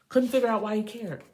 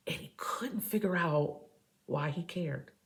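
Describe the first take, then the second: First: Higher and louder, emphatic; loud repeat. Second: Hushed whisper, trailing off. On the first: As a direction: declare it out loud. Repeats the whispered line loudly. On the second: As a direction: breathe it out like a secret. Whispers, then repeats loudly. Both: Acted.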